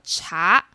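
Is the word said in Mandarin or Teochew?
Mandarin. It is said in standard Mandarin.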